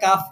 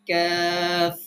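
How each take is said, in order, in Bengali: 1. স্বরটি ছোট, টেনে পড়তে হয় না। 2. স্বরটি লম্বা, টেনে পড়তে হয়। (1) "আমরা কাফ বলি" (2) "সঠিক উচ্চারণ হচ্ছে কাফ"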